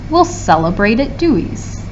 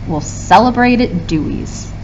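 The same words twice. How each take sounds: Both takes have the same delivery.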